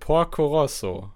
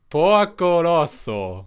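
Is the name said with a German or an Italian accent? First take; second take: German; Italian. First: The name is said with a plain German accent. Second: The name is said with an attempted Italian accent.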